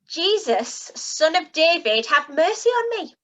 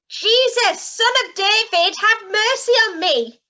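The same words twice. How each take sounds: First: It is shouted loudly. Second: It is shouted even more loudly.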